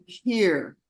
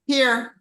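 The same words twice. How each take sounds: First: Calm, level "Here," offered gently with care; gentle offering. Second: "Here." tossed off higher and a bit louder; careless handing over. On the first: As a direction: hand it over kindly with "Here,". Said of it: "I always give somebody something like". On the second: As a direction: shove it over offhandedly with "Here.". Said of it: "instead of". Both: Shown as a demonstration.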